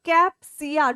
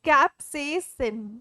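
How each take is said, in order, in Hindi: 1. शब्द एक स्वर 'a' ध्वनि से खत्म होता है। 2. शब्द 'sin' ध्वनि से खत्म होता है। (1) "It is not capsia. Don't call it capsia" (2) "It's capsaicin"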